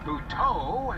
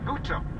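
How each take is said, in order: First: The stress is on the second syllable. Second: The stress is on the first syllable. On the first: "Added emphasis on the second syllable there for a reason" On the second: "we've all been calling him"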